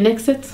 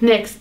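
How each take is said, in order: First: An extra vowel is inserted among the final consonants. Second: It ends in consonants with no added vowel.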